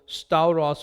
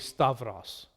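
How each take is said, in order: First: The middle has an 'ow' diphthong. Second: The middle has a 'v' sound. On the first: This is the classical Erasmian pronunciation. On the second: This is the Koine modern pronunciation.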